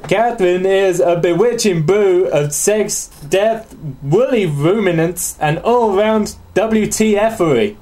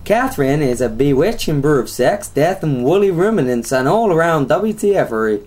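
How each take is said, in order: First: Put-on slow Southern accent drifting into Australian; badly faked Australian accent. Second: Lightly put-on Texan accent; hillbilly accent. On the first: Host reading about a sex game, badly faked Australian accent. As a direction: draw it out in a poor Australian accent. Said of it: "I'm just doing Australian". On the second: Host redoing co-host's reading, mock hillbilly accent. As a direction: read it like a mock Southern US hillbilly. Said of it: "let's do a South American accent".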